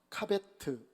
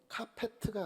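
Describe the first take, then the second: First: The middle consonant is a b sound. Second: The middle consonant is a p sound. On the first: The speaker calls it right. "아니라 카베트" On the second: The speaker calls it wrong. "카페트가 아니라"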